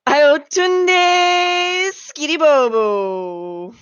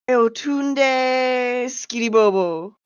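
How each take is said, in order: First: It is said loudly, with long stretched vowels. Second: It is said flatly, without stretched vowels.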